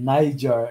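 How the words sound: It is said with an American pronunciation. "the way an American would pronounce it"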